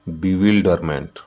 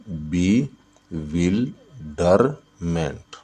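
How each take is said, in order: First: Said in the usual way. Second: "bewilderment" slowly as बि, विल, डर, मेंट; four separate beats in "bewilderment", a pause after each; syllable by syllable. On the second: Shown as a demonstration. ("Bewilderment" को बि... विल... डर... मेंट, तोड़कर) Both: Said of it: "bewilderment में कितने syllable है?".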